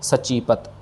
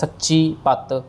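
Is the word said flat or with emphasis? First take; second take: flat; emphatic. First: The word is said flat and soft. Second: The word is said with a forceful emphasis. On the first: The speaker calls it right. "इसको सचीपत flat कहना है" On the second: The speaker calls it wrong. "इसको हमने सच्ची पत ऐसे नहीं कहना है"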